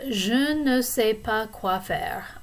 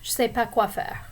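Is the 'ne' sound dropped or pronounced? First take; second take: pronounced; dropped. First: Said in full, with the 'ne' pronounced. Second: Said faster, with the 'ne' left out.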